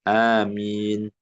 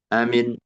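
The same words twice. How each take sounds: First: The first vowel is drawn out long. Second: The first vowel is kept short. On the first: "A-nya panjang, mim-nya uh, lebih pendek dikit" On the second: "Wasaniyah bil qasr"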